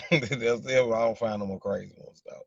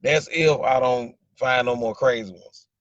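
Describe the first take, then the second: First: Said through a real laugh. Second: Slow, weighted complaint, louder; slow emphatic. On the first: Repeating his joke to the chat, laughing. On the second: Telling the chat about crazy exes, slow and emphatic. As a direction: lean on each word slowly. Repeating his dating complaint. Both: Real, not acted.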